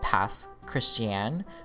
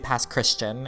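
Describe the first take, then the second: First: The second word differs from the ordinary word Christian. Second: The second word sounds like the ordinary word Christian. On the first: This is how locals say the name. The speaker calls it right. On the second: This is how outsiders say the name. The speaker calls it wrong.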